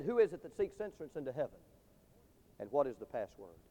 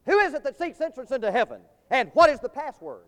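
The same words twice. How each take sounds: First: Low, soft challenge from within the gate; hushed gatekeeper question. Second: Higher, ringing pulpit challenge; heaven's gatekeeper challenge. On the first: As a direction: drop the voice and ask solemnly. Gatekeeper asks the last, humble man. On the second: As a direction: demand it like the guard at heaven's gates. Heaven's gatekeeper challenges the first man. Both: Acted.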